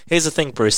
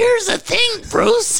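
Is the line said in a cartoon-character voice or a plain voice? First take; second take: plain voice; cartoon voice. First: It is said in a plain reading voice. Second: It is said in a put-on cartoon voice. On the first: "I'm just going to read through" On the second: "You got to do the Marge voice"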